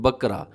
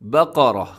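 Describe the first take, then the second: First: The first consonant is a light, plain k sound. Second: The first consonant is a heavy, deep q sound. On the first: The speaker calls it wrong. "अक्सर लोग ये नाम गलत बोल देते हैं" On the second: The speaker calls it right. "काफ को अपने मोटा पढ़ना है"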